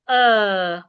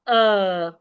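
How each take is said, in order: First: The vowel is said in a British accent. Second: The vowel is said in a British accent.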